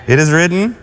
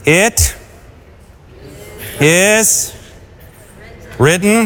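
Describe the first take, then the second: First: Said in the usual way. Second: "It ... is ... written." with long pauses between the words; slow, emphatic. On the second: Acted. Preacher giving Jesus's answer to Satan, slow and weighty. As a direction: give each word its own weight, slowly. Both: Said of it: "And what was his response?".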